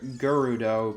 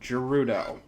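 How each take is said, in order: First: It begins with a hard G sound, as in go. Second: It begins with a soft G sound, as in gem. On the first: "I know some people pronounce it G- Gerudo" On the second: "the G is soft, like in gem. So, Gerudo"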